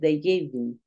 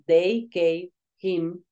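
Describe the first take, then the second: First: The h sound of him is dropped. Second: The h sound of him is clearly pronounced. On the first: The speaker calls it right. "Vas a decir ... esta H se pierde" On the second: The speaker calls it wrong. "no vas a decir"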